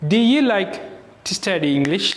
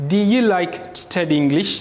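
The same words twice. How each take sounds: First: The small words are reduced to a weak 'uh'. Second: The same.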